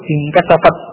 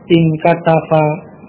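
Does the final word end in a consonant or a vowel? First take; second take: consonant; vowel. First: The word ends on a bare t consonant. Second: The word ends with an added i vowel. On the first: "itu jika artinya sukun" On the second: "Kemudian di kasrah"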